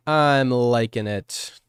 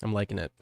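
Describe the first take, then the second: First: "I'm liking it" stretched out slowly and louder. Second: Said in the usual way. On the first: Shown as a demonstration. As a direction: draw out "I'm liking it" with weight.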